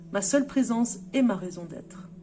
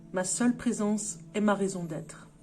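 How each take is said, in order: Both takes have the same delivery.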